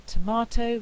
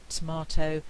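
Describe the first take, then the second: First: Said in the usual way. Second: "tomato" as "tmato" with the first vowel lost; elided tomato. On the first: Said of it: "instead of saying". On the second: Shown as a demonstration. Teacher demonstrating vowel elision. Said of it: "we get".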